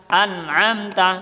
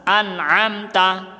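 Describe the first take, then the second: The two takes are said the same way.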